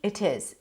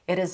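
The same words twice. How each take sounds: First: The T is a clear, crisp T sound. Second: The T is a quick flap, like a D. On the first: "In British English, there is no flap T" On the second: "Here he does use the flap T because he connects it"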